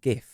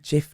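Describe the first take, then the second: First: The word starts with a hard G sound. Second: The word starts with a J sound. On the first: This is the common everyday pronunciation. "not GIF" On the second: This is the supposedly official pronunciation. "It's meant to be GIF"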